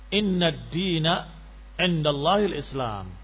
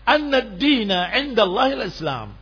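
First: The first word opens with an 'i' vowel. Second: The first word opens with an 'a' vowel. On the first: It starts a new sentence, unlinked to what came before. "dengan dikasrahkan hamzahnya" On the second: It is linked as the content of what is testified. "bacaan riwayat Ibn Abbas radhiyallahu taala anhuma dengan an-nadin"

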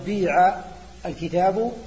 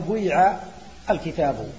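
First: The verb has a pure i vowel. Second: A short u glides into a long i.

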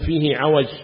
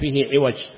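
First: The last word starts with an 'a' vowel. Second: The last word starts with an 'i' vowel. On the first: The crookedness is physical and visible. The speaker calls it right. "قل فيه عوج" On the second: The crookedness is abstract and not visible. The speaker calls it wrong. "لا تقول فيه عوج"

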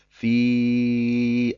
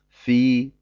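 First: The vowel is drawn out, four or five counts. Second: The vowel is held briefly, about two counts. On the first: The reader continues into the next word. "nur beim Weiterlesen" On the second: The reader stops on this word. "Wenn ich also bei Fi stehen bleibe, sage ich einfach nur Fi"

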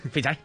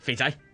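First: The voice sounds softer and less harsh. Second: The voice sounds rough and harsh. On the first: The speaker calls it right. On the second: The speaker calls it wrong.

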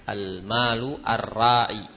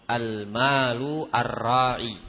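Both takes have the same delivery.

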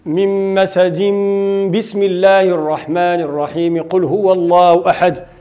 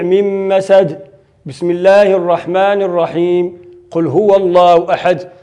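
First: It is recited straight through with no pauses. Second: It pauses before and after the basmala. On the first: The end of the surah, the basmala and the next surah are all joined. "وصل الجميع" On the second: The end of the surah, the basmala and the next surah are all separated. "قطع الجميع"

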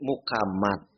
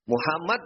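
First: The middle consonant is a k sound. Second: The middle consonant is an h sound. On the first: This is how Indonesians alter the name. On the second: This is the original form of the name.

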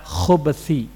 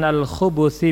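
First: No vowel comes between b and th. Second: A u vowel follows both kh and b. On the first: It refers to evil. "Adapun kalau dibaca khubuthi" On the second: It refers to male jinn. "bidhamil kha wal ba"

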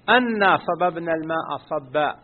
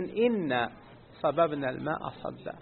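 First: The first word begins with an 'a' vowel. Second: The first word begins with an 'i' vowel. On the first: "هذه القراءة المشهورة بفتح الهمزة" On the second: "وفي قراءة"

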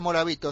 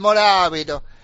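First: The name is said in a plain Spanish manner. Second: The name is said in an Italian manner. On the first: The speaker calls it wrong. "no se dice Morabito" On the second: The speaker calls it right. "se dice Morabito"

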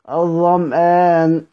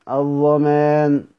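The two takes are said the same way.

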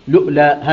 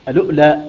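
First: The word starts directly with an L sound. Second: The word starts with a glottal stop before L. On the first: "الوجه الثاني يقرأها بلام مضمومة وبعدها همزة ساكنة" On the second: "الوجه الأول بهمزة، أنه يقرأ بهمزة مفتوحة وبعدها لام مضمومة وبعدها همزة ساكنة"

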